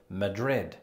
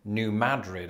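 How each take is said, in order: First: Madrid stressed on the second syllable; Spanish-capital pronunciation. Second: Madrid stressed on MAD, "New MAD-rid"; first-syllable stress. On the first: Host showing his old mistake, Madrid stressed on DRID. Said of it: "pronouncing it just like the Spanish capital". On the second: Host showing the locals' shibboleth, Madrid stressed on MAD. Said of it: "They emphasize the first syllable". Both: Shown as a demonstration.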